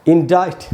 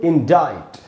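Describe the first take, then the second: Both takes have the same delivery.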